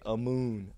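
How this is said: The name is drawn out in a Southern drawl. This is how others mispronounced the name. "with the southern drawl, everybody would say"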